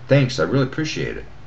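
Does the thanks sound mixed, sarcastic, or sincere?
sincere. It sounds warm and genuinely grateful. The gratitude is real. "First, it was"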